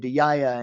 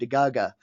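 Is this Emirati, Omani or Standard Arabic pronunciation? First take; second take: Emirati; Omani. First: It is said in the Emirati way. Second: It is said in the Omani way.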